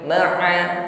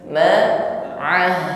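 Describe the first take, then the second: First: The final h sound is not heard. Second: A breathy h sound is heard at the end. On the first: The speaker calls it wrong. "tidak terasa haknya ya" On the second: The speaker calls it right. "ada sifat huruf hak yang terasa di situ"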